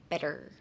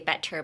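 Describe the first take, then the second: First: The T sound is soft and flowing. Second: The T sound is hard and stressed. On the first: The speaker calls it right. "Just kind of flow it through like better" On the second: The speaker calls it wrong. "You can say better, but like seems a bit off"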